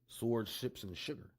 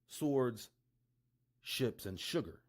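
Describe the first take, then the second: First: It is said fast. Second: It is said at normal speed.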